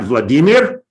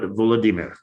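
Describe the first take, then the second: First: The name is said as two-syllable-start Vladimir. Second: The name is said as four-syllable Volodymyr. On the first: The speaker calls it wrong. "not Vladimir" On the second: The speaker calls it right. "it's pronounced the Ukrainian way"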